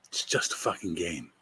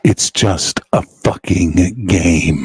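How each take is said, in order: First: It is said at normal volume. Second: It is said loudly.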